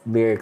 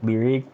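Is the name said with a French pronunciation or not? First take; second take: not French; French. First: The name is pronounced without French sounds. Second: The name is pronounced the French way. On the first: The speaker calls it right. "Yeah, it's Lyric" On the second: The speaker calls it wrong. "they pronounce it in French, like Lyric"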